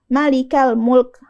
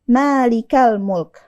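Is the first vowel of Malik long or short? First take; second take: short; long. First: The first vowel of Malik is short. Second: The first vowel of Malik is long. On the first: The speaker calls it wrong. "bukan Malikal Mulk" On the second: The speaker calls it right. "Kita panjangkan huruf ma-nya"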